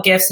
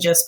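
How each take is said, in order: First: "gifs" with a hard G, as in gift. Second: "gifs" with a soft G, like jifs. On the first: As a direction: say "gifs" starting with a hard g sound. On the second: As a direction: say "gifs" starting with a j sound. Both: Shown as a demonstration. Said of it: "now that I've said both".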